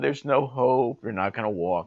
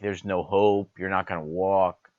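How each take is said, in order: First: It is said in a pleasant, gentle tone. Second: It is said in a blunt, harsh tone. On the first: The bad news is delivered kindly. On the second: The bad news is delivered harshly.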